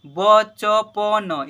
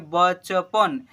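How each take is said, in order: First: "बचपन" as "ब, च, प, न", loud and very slow; spelled letter by letter. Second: "बचपन" joined, ending on न; blended into one word. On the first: Teacher spelling aloud for pupils, letter by letter. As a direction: stretch every letter of "बचपन" separately. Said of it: "देखिए हिजे कीजिए ना". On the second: Teacher showing how it is read, blended. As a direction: run "बचपन" together as one slow word. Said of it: "इसे पढ़ेंगे". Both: Shown as a demonstration.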